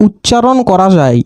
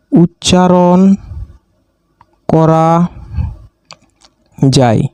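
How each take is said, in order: First: Said in the usual way. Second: Each word alone with long pauses: উচ্চারণ … করা … যায়; word-by-word dictation. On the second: Shown as a demonstration. Teacher dictating to students, one word at a time. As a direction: spell it out slowly for note-takers.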